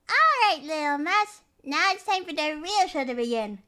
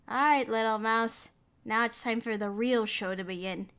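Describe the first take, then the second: First: It is read in a put-on gremlin voice. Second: It is read in a normal voice.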